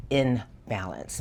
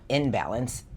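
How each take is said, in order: First: "in balance" split into two words, slow, falling at the end; separated corrected take. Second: "in balance" said as one word like "imbalance", ending on a rise; run-together rejected take. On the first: Reader clarifying the card's meaning for Aries, deliberately separated words. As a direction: set "in" apart, short gap, then "balance" dropping. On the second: Reader rejecting the wrong word to clarify her message, run-together contrast. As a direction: say "in balance" joined up, tune lifting at the end. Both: Shown as a demonstration. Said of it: "Not in balance".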